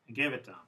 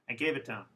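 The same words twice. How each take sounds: First: The small words are reduced and run together. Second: The small words are reduced and run together.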